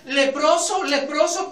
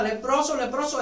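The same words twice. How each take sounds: First: Called out a little louder, rising; a mild mock cry of warning; leper's warning cry. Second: Said in the usual way. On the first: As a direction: call out the warning to the crowd. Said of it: "Un leproso tenía que gritar". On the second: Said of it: "Cuando un leproso no gritaba".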